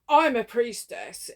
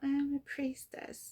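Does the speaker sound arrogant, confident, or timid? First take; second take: arrogant; timid. First: It is said with an arrogant, egoic tone. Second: It is said hesitantly and timidly.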